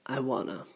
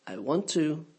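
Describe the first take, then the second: First: "wanna" blended into one quick word; contracted wanna. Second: Said in the usual way. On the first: Shown as a demonstration. Teacher showing the native contraction, swallowed. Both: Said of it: "the words get swallowed and contracted".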